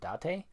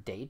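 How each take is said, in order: First: The name ends in a spoken 'eh' vowel. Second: The name sounds like the English word 'date'. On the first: The speaker calls it right. "E's are usually pronounced as an A" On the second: The speaker calls it wrong. "I'm pronouncing it as like ... date"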